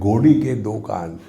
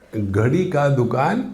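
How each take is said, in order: First: The vowels are rounded, Bengali style, ghodi ke. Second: The vowels sound like standard Hindi, ghadi ka. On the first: "See the difference in the pronunciation" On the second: "So I started reading"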